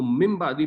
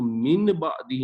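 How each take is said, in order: First: من بعدی with the n turned into m, like mim-baadi; correct reading. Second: من بعدی with a clear n before the b; wrong reading. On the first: Teacher showing students the right reading, n becoming m. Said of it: "اس کو من بعدی پڑھیں گے". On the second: Teacher showing students the reading to avoid, clear n. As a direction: say من بعدی with the n fully pronounced, as the wrong way. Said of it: "اس کو من بعدی ہی نہیں پڑھیں گے". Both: Shown as a demonstration.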